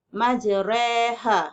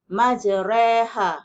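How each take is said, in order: No difference in how they are said.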